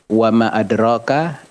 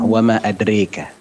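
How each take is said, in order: First: The vowel after 'dr' is an open a. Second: The vowel after 'dr' is bent toward e. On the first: This is one recognized reading tradition. "itu riwayatnya Hafs" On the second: This is another recognized reading tradition. "Kalau riwayatnya Syu'bah"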